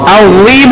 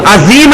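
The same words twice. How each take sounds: First: "عظیم" as "adheem", thick dh with tongue on teeth; correct heavy dh. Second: "عظیم" as "azeem" with a whistling Z; wrong Z sound. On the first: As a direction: say "عظیم" full, without whistle. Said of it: "عظیم ہوگا". ("عظیم" موٹی ظا کے ساتھ، سیٹی کے بغیر) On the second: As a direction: say "عظیم" with a plain Urdu Z. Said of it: "وہ زید دوسری ہو جائے گی". ("عظیم" سیٹی والی زے کے ساتھ) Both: Shown as a demonstration.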